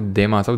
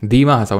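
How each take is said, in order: First: The first vowel is an 'ay' sound. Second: The first vowel is a long 'ee' sound. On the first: The speaker calls it wrong. "ना कि देमा हसाऊ" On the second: The speaker calls it right. "दीमा हसाऊ ना कि"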